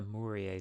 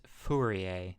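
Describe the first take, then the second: First: Mourier said with an M, as MOO-ree-ay; Mourier, starting on an M sound; wrong name. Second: Fourier said with an F, as FOO-ree-ay; Fourier, slowly, starting on a clear F; correct pronunciation. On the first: Retold or imitated. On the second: Shown as a demonstration. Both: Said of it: "No, it's Fourier, not Mourier".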